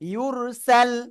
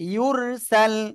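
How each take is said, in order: The two takes are said the same way.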